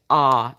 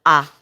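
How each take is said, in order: First: "ah" with the tone sliding downwards; English relaxed ah. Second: "ah" short and tighter, without the downward slide; French ah. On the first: Showing the English vowel to viewers, relaxed falling "ah". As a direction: let the jaw slacken on "ah", pitch going down. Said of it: "the tone kind of goes downwards on the ah". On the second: Showing viewers the French vowel against English, firm "ah". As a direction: say a firm French "ah", jaw not slackened. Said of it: "Whereas in French, it's gonna be more like". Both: Shown as a demonstration.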